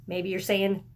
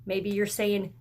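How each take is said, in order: Both takes have the same delivery.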